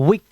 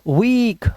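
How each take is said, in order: First: The vowel is short, like i. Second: The vowel is long, like ee. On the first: The speaker calls it wrong. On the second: The speaker calls it right.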